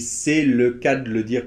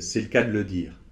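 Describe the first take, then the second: First: It is said slowly and carefully. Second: It is said quickly and run together.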